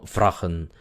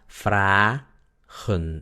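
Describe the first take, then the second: First: The first vowel is short. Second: The first vowel is long. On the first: The speaker calls it wrong. "no fragen" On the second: The speaker calls it right. "la A es larga, es abierta la sílaba. Por eso se pronuncia fragen"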